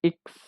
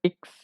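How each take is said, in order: Both takes have the same delivery.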